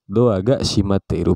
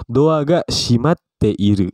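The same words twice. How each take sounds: First: Said in the usual way. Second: Slow, drawn-out example sentence with a held break in shimatte; slow model reading. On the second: Shown as a demonstration. Teacher models a Japanese example for students, slowly. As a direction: stretch out "shimatte iru" for learners.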